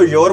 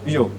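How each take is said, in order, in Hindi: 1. शब्द के अंत में r की साफ़ ध्वनि होती है। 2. शब्द के अंत में कोई r ध्वनि नहीं होती। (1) "अब आप ही बता दो इसको योर बोलोगे या फिर यो बोलोगे" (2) "उस आर की साउंड होती है वो क्या होती है भी, साइलेंट होती है"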